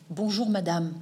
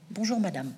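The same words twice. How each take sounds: First: Said in the usual way. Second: Soft, kind polite hello; gentle greeting. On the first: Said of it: "il va lui dire". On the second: Retold or imitated. Martin greeting the lonely woman with gentle kindness. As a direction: offer it like a hand held out. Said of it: "Cette main tendue".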